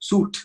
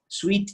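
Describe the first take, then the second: First: The word sounds like 'suit'. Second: The word sounds like 'sweet'. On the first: The speaker calls it wrong. "Suit නෙවෙයි" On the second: The speaker calls it right. "S U I T E කියන එක sweet sweet කියනුනේ"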